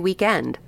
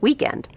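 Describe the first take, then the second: First: It is pronounced in a non-American way. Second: It is pronounced in the usual American way. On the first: A personal choice of pronunciation. "I like to say weekend. ... but that's not how we usually pronounce it here in the States" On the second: The usual local pronunciation. "It's weekend"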